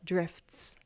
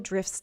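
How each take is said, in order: First: A T sound is pronounced before the S. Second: The T sound is dropped before the S. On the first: "I can try drifts" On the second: "in fast speech, we'd actually might drop that T"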